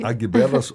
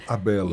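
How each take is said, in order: First: A g sound is pronounced before the b. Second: The g is silent before the b. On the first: "eu tinha falado Agbelas" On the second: "eu vi você falando Abelas"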